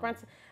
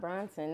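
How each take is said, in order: First: The first vowel sounds like the u in brush. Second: The first vowel sounds like the o in bronze. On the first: The speaker calls it right. "it's just Brunson" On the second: The speaker calls it wrong. "it's not Bronson"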